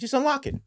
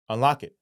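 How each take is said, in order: First: Much higher-pitched, impatient demand; imitated pushy repeat; retold insistence. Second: Said in the usual way. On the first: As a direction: insist as if brushing off the protest. Handler insists a second time.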